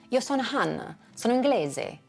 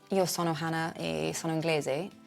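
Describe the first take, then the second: First: It has exaggerated, Italian-sounding intonation. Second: It has flat, English-sounding intonation. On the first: The speaker calls it right. "by exaggerating the way that I thought Italians sounded" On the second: The speaker calls it wrong. "my original flat English intonation in Italian"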